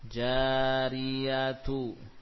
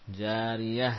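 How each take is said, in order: First: The ending is read with a t and vowel. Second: The ending is read as an h sound. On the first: The word is read in connected speech with its vowel. "kalau dibaca harokatnya, maka yang terbaca titiknya dua, ya, ta" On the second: The reader pauses at this word. "Kalau kita wakufkan jadi ha"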